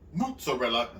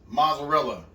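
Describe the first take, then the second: First: The first syllable sounds like moots. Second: The first syllable sounds like mozz. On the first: The speaker calls it wrong. "where'd the moot come from?" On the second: The speaker calls it right. "It's Moz"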